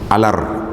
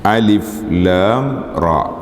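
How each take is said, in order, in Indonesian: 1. Huruf-hurufnya digabung menjadi satu kata pendek. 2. Setiap nama huruf diucapkan terpisah secara lengkap. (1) "ada orang baca alar" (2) "bacaan mengikut huruf asal"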